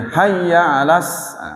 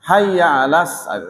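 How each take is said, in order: The two takes are said the same way.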